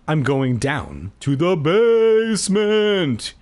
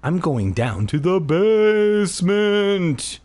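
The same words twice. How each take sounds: First: Slow, high, drawn-out menace; slow eerie announcement; creepy Keith. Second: Slow, high, drawn-out menace; slow spooky announcement; creepy Keith. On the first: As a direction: stretch it out like a creepy villain. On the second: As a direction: stretch it out eerily. Creepy line repeated. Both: Acted.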